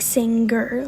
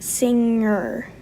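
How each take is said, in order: First: The ng is followed by a hard G sound. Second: The ng has no hard G sound after it. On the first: "I say it with the hard G" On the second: "instead of like, I don't even know if I can do it"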